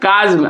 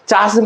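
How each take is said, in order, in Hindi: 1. यह शब्द k ध्वनि से शुरू होता है। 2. यह शब्द ch ध्वनि से शुरू होता है। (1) "ये सी एच कॉ में बदल गया" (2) "चास्म पढ़िएगा तो गलत हो जाएगा"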